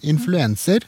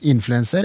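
First: The stress falls on a later syllable. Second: The stress falls on the first syllable. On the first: "Så kunne jeg sagt en influenser" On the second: "den engelske fryktelig framtunge trykkplasseringen"

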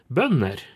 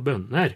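First: Northern melody, with higher pitch on the first syllable. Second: A melody midway between the eastern and northern ones. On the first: "på nordnorsk så vil det ligge høyere på første" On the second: "Som en slags mellomting"

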